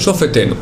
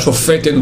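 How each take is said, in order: First: The middle syllable is stressed lightly. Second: The middle syllable is stressed heavily. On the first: The speaker calls it right. "mais Shofetenu" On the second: The speaker calls it wrong. "j'ai accentué trop"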